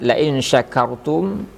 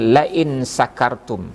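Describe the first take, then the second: First: The last word begins with an 'sh' sound. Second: The last word begins with an 's' sound. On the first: The speaker calls it right. "huruf shin diganti dengan sin" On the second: The speaker calls it wrong. "kita ganti dengan la in sakartum"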